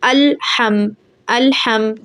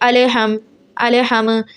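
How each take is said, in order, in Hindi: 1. खामोश व्यंजन को बिना झटके के, स्थिर रखा जाता है। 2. खामोश व्यंजन को अतिरिक्त झटके के साथ हिलाया जाता है। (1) "ऐसे पढ़ना है" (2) "ऐसे नहीं पढ़ना"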